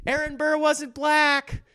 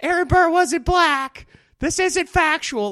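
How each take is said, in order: First: High, slow mock whine; high slow mock heckler correction; mock pedantic heckler. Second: High, slow, louder mock outrage; hammed-up heckler getting louder. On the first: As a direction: whine it like a fussy know-it-all. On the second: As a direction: push the fussy heckler voice harder and louder.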